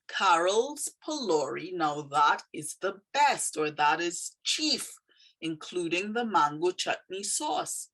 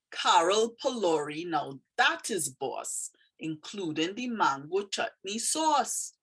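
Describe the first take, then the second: First: Said in the usual way. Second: Lilting Trini dialect, slowing on the praise. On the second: Shown as a demonstration. Teacher reading a poem about Carol's food, in Trini dialect. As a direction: read it with a Trini lilt. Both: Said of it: "is a very Trini phrase".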